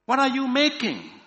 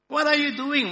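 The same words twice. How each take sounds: First: High-pitched shouted question; loud shout. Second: High, loud, anxious question; nervous cry. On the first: Another cave dweller questioning the silent stranger, loud shout. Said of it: "another shouted even louder". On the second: Cave dweller watching a stranger stack something, nervous cry. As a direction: cry out nervously, pitched right up. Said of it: "one cried nervously". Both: A narrator's reading.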